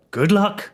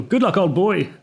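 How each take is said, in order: First: High, breezy British official; cheerful send-off. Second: High, jolly British caricature; cheerful old-boy British. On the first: Embassy official ending the call with the prisoner, cheerful. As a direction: wish it lightly, pitched up, very British. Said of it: "As if it was like a cheerful". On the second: Storyteller mocking the official's farewell, cheerful and very British. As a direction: send them off like a jolly British chum. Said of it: "like a cheerful". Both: Retold or imitated.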